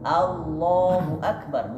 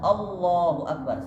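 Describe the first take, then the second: First: The first vowel is an open a sound. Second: The first vowel is a rounded o-like sound. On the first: The speaker calls it right. "A tetap A bacanya" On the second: The speaker calls it wrong. "bukan Allahu akbar, salah"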